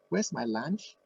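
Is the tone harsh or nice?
nice. It is said in a nice, gentle tone. The speaker is asking kindly. The speaker calls it right.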